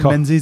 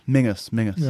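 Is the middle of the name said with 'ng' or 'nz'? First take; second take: nz; ng. First: The name is said with an 'nz' sound. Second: The name is said with an 'ng' sound. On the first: The speaker calls it wrong. "So it's not Menzies" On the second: The speaker calls it right. "It's pronounced Mingus"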